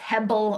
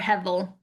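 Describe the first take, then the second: First: The middle consonant is a b sound. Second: The middle consonant is a v sound. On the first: "depending on how you want to pronounce Hebrew" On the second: "H E V E L is probably the more common pronunciation"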